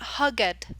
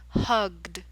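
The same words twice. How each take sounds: First: The ending adds an extra syllable. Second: The ending is a plain d sound. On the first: The speaker calls it wrong. "not hugged" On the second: The speaker calls it right. "you have to put a D sound at the end"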